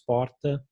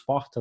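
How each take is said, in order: First: It is pronounced in the Porto Alegre accent. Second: It is pronounced in another region's accent. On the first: This is how the speaker's home region says it. "nós dizemos porta" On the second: This is not how the speaker's home region says it. "Nós não dizemos porta"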